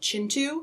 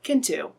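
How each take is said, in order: First: The name begins with a ch sound. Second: The name begins with a k sound. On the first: The speaker calls it right. "that's actually how you pronounce it" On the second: The speaker calls it wrong. "and not Kintu"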